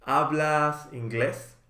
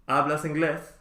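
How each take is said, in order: First: Slow model. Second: Natural speed. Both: Shown as a demonstration. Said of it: "teacher models phrase twice".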